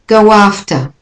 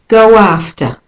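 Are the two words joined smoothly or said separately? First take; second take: joined; joined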